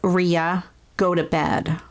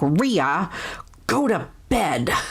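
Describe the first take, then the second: First: It is said in a plain, mild voice. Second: It is said in a stern, scolding voice.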